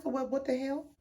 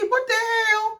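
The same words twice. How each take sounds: First: Much softer, under-the-breath reaction; quiet, baffled aside with slightly raised pitch; taken aback. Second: Very high-pitched, drawn-out exclamation; shocked. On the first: Viewer reacting to the house revelation, quietly baffled. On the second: Viewer as shocked as the two friends, high-pitched disbelief. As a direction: squeal it in mock shock. Louder repeat of shocked reaction. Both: Retold or imitated.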